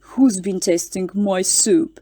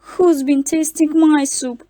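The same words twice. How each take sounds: First: It is roared in a big, deep voice. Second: It is squeaked in a tiny, high voice. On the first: "roared in his great big voice" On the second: "squeaked in his tiny little voice"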